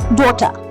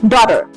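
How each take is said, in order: First: It has a British accent with no sounded r. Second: It has an American accent with a sounded r. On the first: "The British, they say daughter" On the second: "the Americans, they say daughter"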